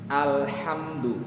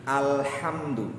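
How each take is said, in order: Both takes have the same delivery.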